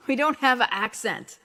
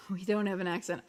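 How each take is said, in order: First: Loud, hammed-up Long Island accent. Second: Said in the usual way. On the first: Joking to viewers about having no accent, loud exaggerated Long Island accent.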